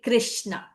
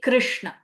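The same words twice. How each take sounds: First: The sh sound is made without curling the tongue. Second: The sh sound is made with the tongue curled back. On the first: The speaker calls it wrong. "it is impossible for me to now say" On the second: The speaker calls it right. "I have to say Krishna. It feels so natural"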